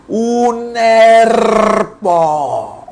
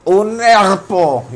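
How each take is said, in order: First: Put-on high, very drawn-out child's yell with a proudly rolled R; shrill seven-year-old's cry. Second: Slow, higher "herpo" with the R botched; drawn-out mispronunciation. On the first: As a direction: squeal it like a kid showing off his new trill. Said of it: "pegué el grito con voz chillona de siete años". (grito chillón de niño de siete años, con la erre vibrada) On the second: Retold or imitated. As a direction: stretch out "herpo", R left untrilled. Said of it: "yo estaba pronunciando mal". ("herpo" lento y agudo, con la erre mal pronunciada)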